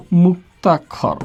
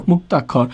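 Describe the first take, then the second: First: "মুক্তাক্ষর" slow, split after মুক; syllable by syllable. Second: Said in the usual way. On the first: Shown as a demonstration. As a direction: draw out "মুক্তাক্ষর" in parts, মুক, তাক্ষর. Teacher breaks up the new term.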